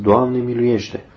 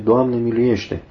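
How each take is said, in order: First: Slow prayerful cry. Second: Said in the usual way. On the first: A narrator's reading. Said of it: "și strigați". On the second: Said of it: "a strigat cu lacrimi multă vreme".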